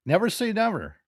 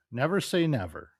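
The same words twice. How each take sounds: First: NEVER punched high and loud; emphatic. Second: Said in the usual way. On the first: Shown as a demonstration. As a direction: hit both "never"s hard and high.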